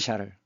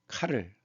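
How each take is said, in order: First: The name begins with a sh sound. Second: The name begins with a k sound. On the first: "프랑스 발음은 샤를" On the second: "이 게르만 쪽은 카를"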